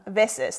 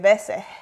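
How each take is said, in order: First: The final S is clearly pronounced. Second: The final S fades, Venezuelan style.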